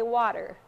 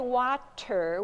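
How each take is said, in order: First: The middle consonant is a voiced D-like sound. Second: The middle consonant is a crisp voiceless T. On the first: "we say water" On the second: "But we don't say water"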